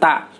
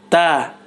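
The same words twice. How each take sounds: First: No air audibly flows out with the consonant. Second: Air audibly flows out with the consonant. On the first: The speaker calls it wrong. "bukan ta" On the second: The speaker calls it right. "keluar udara dari mulut, ya, mengalir"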